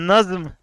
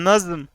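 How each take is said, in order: No difference in how they are said.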